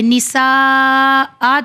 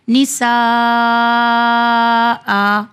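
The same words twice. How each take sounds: First: "نساء" with long vowel, then the ending sounded; full written form. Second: "نساء" with a very long held aa, clipped stop; pausing recitation. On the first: Teacher showing the word before stopping, ending sounded. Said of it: "پھر ہمارا دیکھیے نساء آ تھا". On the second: Teacher showing how to stop, very long held vowel. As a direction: stretch "نساء" far out, then stop on hamza. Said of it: "ہمیں کس طرح سے پڑھنا ہے". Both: Shown as a demonstration.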